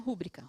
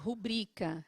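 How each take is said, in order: First: The stress is on the first syllable. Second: The stress is on the second syllable. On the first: The speaker calls it wrong. "não é rúbrica" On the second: The speaker calls it right. "Rubrica é paroxítona"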